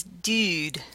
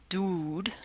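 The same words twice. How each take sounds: First: "dude" with a fronted oo, near "dyood"; fronted-vowel pronunciation. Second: "dude" with a back oo, "dood"; back-vowel pronunciation. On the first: Lecturer giving two possibilities, "dude" with a fronted oo. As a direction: push the vowel of "dude" forward. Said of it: "the other one is dude". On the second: Lecturer giving two possibilities, "dude" with a back oo. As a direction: round oo far back in "dude". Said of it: "So the two possibilities here". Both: Shown as a demonstration.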